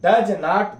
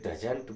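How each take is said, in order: First: It is said as two separate full words. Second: It is said as one short contracted word. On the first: "डज नॉट बोल के" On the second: "डजंट बोलेंगे"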